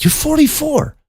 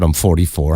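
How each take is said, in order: First: Very high, squeaked question; shocked disbelief. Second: Unruffled, matter-of-fact reply; calm answer. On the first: Teller re-enacts hearing her age, shocked. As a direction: echo it back with the pitch shooting up. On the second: Woman on the street answers about her age, calmly. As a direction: answer evenly, with no surprise at all. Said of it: "she just calmly answered". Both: Retold or imitated.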